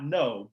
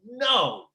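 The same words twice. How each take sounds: First: It is said calmly, without anger. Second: It is said angrily, with force.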